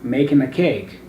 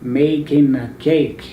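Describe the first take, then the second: First: The phrase is spoken fast. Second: The phrase is spoken slowly. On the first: "you can speed up" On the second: "you can speak slowly"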